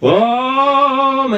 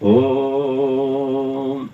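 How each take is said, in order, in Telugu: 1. ఓం ని గట్టిగా అరుస్తారు. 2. ఓం ని మెల్లగా, కానీ వినబడేలా అంటారు. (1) "ఇలా అరవడం కాదు" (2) "మెల్లిగా బయటికి వినబడడం"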